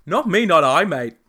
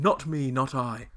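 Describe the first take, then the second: First: Loud, high mock Australian accent; hammed-up Australian impression. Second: Said in the usual way. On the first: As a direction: overdo the Aussie, then toss off "mate". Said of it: "sound better in an Australian accent". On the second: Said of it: "rather than".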